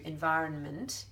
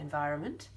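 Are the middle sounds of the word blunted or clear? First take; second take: clear; blunted. First: Every sound in the middle is said clearly. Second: The sounds in the middle are blunted. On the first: "environment is actually correct" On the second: "we sort of say environment. We blunt out a lot of sounds"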